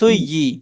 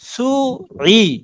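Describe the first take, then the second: First: The middle sound is a y-like glide. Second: The middle sound comes from the throat. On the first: The speaker calls it wrong. "বললে হবে ইয়া" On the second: The speaker calls it right. "আওয়াজটা শুধু গলার মাঝে নিয়ে যাবেন"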